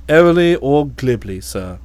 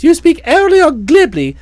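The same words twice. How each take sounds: First: Airily or glibly in a low, calm valet voice; supply the word quietly and much lower; the valet offering the word, low and composed; Jeeves the valet. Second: Said in the usual way. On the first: Acted.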